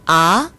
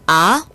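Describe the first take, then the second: First: The pitch rises from low to high. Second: The pitch rises from low to high.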